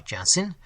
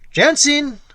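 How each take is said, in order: First: Said in the usual way. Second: Calling out high and loud across the room; loud summoning cry. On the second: Acted. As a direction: shout the name into the tavern. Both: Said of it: "cried in a loud tone".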